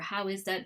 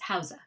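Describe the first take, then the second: First: Each word is said fully and separately. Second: The words run together into two syllables.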